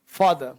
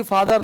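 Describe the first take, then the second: First: फादर said as faadah, no r, falling; silent r in father. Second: फादर said as faadar, final r rolled; father with the r sounded. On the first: Teacher models father for the class, r silent. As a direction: end फादर on an open ah, r dropped. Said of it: "और फा बोला ऐसे". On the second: Teacher shows the class the wrong father, r sounded. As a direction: say फादर the wrong way, r clearly heard. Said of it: "mother नहीं, फादर नहीं". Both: Shown as a demonstration.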